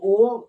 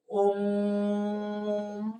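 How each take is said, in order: First: Said in the usual way. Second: ओम held on one steady note; long drawn-out ओम. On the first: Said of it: "तुरंत बोल देना है". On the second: Shown as a demonstration. Teacher demonstrating the prolonged vowel, ओम drawn out. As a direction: stretch ओम out for seconds, level pitch. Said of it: "खींच को। तो कैसे होगा".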